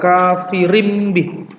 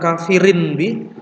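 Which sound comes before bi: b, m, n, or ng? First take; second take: m; n. First: The tanwin is changed into an m sound. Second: The tanwin is kept as a clear n. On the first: The speaker calls it right. "tetapi diganti dengan mim, kafirim bi" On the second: The speaker calls it wrong. "Jadi bukan kafirin bi"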